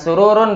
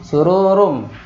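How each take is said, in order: First: The final sound is a clear n. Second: The final sound merges into an m. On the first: The speaker calls it wrong. "bukan sururun berarti ya" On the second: The speaker calls it right. "Suru sururum ya"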